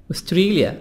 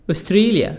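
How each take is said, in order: Both takes have the same delivery.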